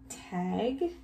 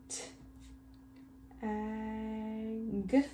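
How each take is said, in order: First: Said in the usual way. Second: "T-, ag" split, with a long held "ag"; sounded out. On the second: Shown as a demonstration. Teacher helping children write the word, sounded out. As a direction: sound out T, pause, then stretch ag. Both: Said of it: "What's our first word?".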